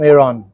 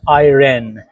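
First: Iran is said in a Persian accent. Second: Iran is said in an American accent.

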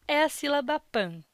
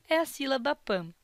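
No difference in how they are said.

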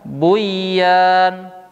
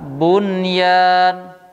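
First: The n merges into the following y. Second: The n is pronounced clearly before the y. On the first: The speaker calls it wrong. "tidak dibaca dengan buyan" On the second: The speaker calls it right. "Tetapi dibaca dengan bunyan"

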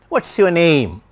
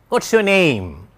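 First: Only what and name are stressed. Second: Only what and name are stressed.

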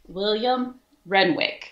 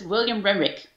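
First: The name is said slowly and deliberately. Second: The name is said quickly and smoothly. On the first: "So I have to be like really William Renwick. But then it sounds very robotic" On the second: "If I do it fast"

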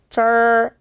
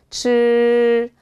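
First: The tongue is curled back strongly, like English r. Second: The tongue is curled back only slightly. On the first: The speaker calls it wrong. "영어식의 R 발음을 읽기 위해서 절 이렇게 많이 마세요" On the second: The speaker calls it right. "삼분의 일 정도만"

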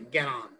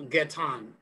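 First: The T is flapped, sounding like an R. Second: The T is clearly pronounced, standard European style.

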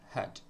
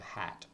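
First: The vowel is reduced to a weak schwa. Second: The vowel is full and unreduced. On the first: "When you speak fast, you say had" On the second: "instead of had"

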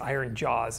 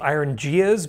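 First: The second word sounds like 'jaws'. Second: The second word sounds like 'gias'. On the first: The speaker calls it right. "I think it's iron jaws is what it's supposed to be pronounced as" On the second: The speaker calls it wrong. "I thought it was iron gias"

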